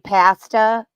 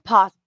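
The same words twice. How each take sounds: First: The first syllable sounds like the word 'past'. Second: The first syllable does not sound like 'past'. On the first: The speaker calls it wrong. "All you Canadians saying pasta. Is it from the past?" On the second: The speaker calls it right. "No, it's pasta"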